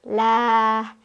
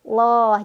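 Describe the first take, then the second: First: A light, thin sound with an open 'a' vowel. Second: A dark, thick sound with an 'o'-like vowel. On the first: "cara bacanya ditipiskan menjadi lah" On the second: "cara bacanya ditebalkan atau loh"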